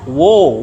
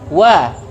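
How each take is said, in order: First: The vowel is thick and rounded, like 'o'. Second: The vowel is thin and open, like 'a'. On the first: "Yang akhirannya o" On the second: "yang akhirannya a tipis"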